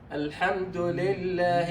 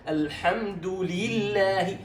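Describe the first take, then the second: First: The kasra vowel is mixed, sounding like 'le'. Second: The kasra vowel is pure, sounding like 'li'. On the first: The speaker calls it wrong. "ولا تقل الحمد لله ل" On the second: The speaker calls it right. "لا الحمد لله"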